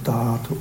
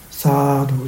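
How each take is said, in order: First: The word begins with a t sound. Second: The word begins with an s sound. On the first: This is how Burmese speakers pronounce it. The speaker calls it wrong. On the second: This is the clear standard pronunciation. The speaker calls it right.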